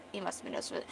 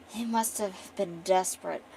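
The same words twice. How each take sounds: First: Said in the usual way. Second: Lightly acted disdain; disdainful. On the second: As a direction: sneer it lightly, like a noble. Acting the noble woman's disdain.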